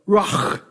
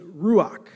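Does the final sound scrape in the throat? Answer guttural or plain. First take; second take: guttural; plain. First: The final sound is a harsh scrape in the throat. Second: The final sound is plain, with no throat scrape. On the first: The speaker calls it right. "you have to do the like hakaloogie thing where you go" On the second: The speaker calls it wrong. "I'm not saying it correctly"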